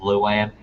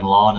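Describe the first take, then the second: First: The word is said as two syllables. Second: The word is said as one syllable. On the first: The speaker calls it right. "is Luan" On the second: The speaker calls it wrong. "what he was calling lawn"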